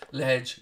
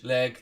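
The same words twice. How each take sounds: First: Ledge said with a soft dge ending; ledge pronounced. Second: Leg said with a hard g ending; leg pronounced. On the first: Corrects himself to a viewer, saying Ledge clearly. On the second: Sets leg against ledge for a viewer, hard g. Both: Shown as a demonstration. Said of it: "there you go".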